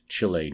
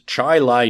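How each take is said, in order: First: The name ends with a 'lee' sound. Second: The name ends with a 'lie' sound. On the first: The speaker calls it wrong. "and not Chile, New York, as I had said" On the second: The speaker calls it right. "So it is Chi-Lai"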